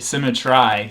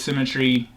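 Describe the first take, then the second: First: The last syllable rhymes with 'eye'. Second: The last syllable ends in a 'tree' sound. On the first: It keeps the poem's rhyme scheme regular. "tempted to read it symmetry so that you can make um, the rhyme scheme um, consistent" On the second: It is the word's ordinary pronunciation. "But I read it as symmetry"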